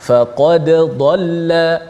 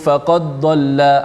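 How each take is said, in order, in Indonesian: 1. Bunyi d dibaca jelas sebelum bunyi berikutnya. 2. Bunyi d menyatu dengan huruf tebal yang mengikutinya. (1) "Bacaan kita bacaan yang dibaca dengan secara izhar" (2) "dibaca dengan memasukkan dal ke dalam dad. Uh, dia bunyi macam ni"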